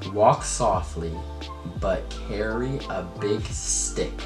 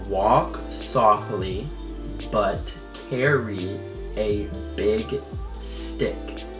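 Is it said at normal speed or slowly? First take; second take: normal speed; slowly. First: It is said at normal speed. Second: It is said more slowly.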